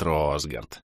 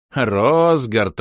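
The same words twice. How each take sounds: First: Name drops low and soft, savouring it; a low, soft smiling murmur of the name; the villain purrs a familiar name; quiet pleased murmur. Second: Name called out loud and bright; loud joyful call. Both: Acted. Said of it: "растянул губы в радостной улыбке".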